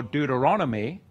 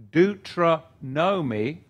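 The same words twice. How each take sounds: First: Said in the usual way. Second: "Deuteronomy" drawn out as deutro-NO-mee; split pronunciation. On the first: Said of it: "Deuteronomy or Deuteronomy". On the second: Shown as a demonstration. Explaining the book's name, "Deuteronomy" slowly split as deutro-NO-mee. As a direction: break "Deuteronomy" in two, deutro, then NO-mee. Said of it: "or Deuteronomy".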